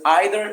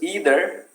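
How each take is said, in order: First: The word is said with a British pronunciation. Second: The word is said with an American pronunciation. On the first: "we use either in British English" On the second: "We use either in American English"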